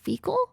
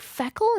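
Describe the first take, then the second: First: The first syllable sounds like 'fee'. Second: The first syllable sounds like 'feck'. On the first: The speaker calls it right. "do they say feckle instead of fecal?" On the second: The speaker calls it wrong. "do they say feckle instead of fecal?"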